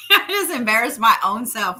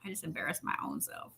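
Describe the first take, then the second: First: Laughing. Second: Embarrassed mumble. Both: Real, not acted.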